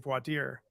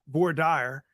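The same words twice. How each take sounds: First: It is said with a standard pronunciation. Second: It is said with a Texan pronunciation. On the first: This is how it is really said. The speaker calls it right. "but it's really" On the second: This is how someone else said it. The speaker calls it wrong. "as a judge in Texas once called it"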